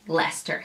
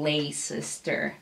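First: The name is pronounced in a shortened form. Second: The name is pronounced following its full spelling. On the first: This is how it is actually said in Britain. The speaker calls it right. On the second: This is how an American reader would read it. The speaker calls it wrong. "you would basically read Leicester Square as it's written"

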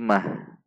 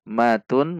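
First: The ending is stopped on a soft 'h'. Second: The ending is pronounced as 'tun' with nunation. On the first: "kita akan wakafkan menjadi disukunkan" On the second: "Mad tanwin di akhir kalimat"

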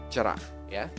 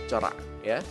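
No difference in how they are said.

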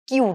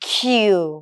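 First: The letter is said lightly, without strong stress. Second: The letter is said with heavy stress. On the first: The speaker calls it wrong. "এটা কিউ না" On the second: The speaker calls it right. "এখানে just একটু বেশি stress দিতে হবে।"

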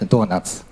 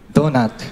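First: It is said with Japanese pronunciation. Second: It is said with English pronunciation.

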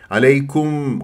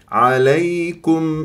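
First: The u vowel is dragged onto the final m. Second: The final m ends cleanly with no vowel. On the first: The speaker calls it wrong. "عليكم غلط" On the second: The speaker calls it right. "لا تسحب ضمة الكاف إلى الميم"

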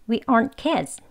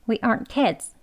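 Both takes have the same delivery.

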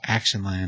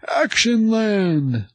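First: It is said plainly, in a normal voice. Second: It is said loudly, like an excited announcer.

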